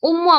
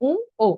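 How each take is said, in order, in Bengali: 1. u-এর পরে একটি স্পষ্ট m ধ্বনি শোনা যায়। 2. অনুনাসিক স্বর শোনা যায়, কোনো m ধ্বনি ছাড়া। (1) "আমরা যেটি বলি সেটি হলো ভুল উচ্চারণ" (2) "সঠিক উচ্চারণ হবে উ ও ... খানিকটা নাকি স্বরে হবে"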